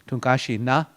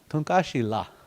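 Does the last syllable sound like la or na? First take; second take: na; la. First: The last syllable begins with an n sound. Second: The last syllable begins with an l sound. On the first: "I've heard na here in Sioux Valley" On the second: "some might even claim Lakota"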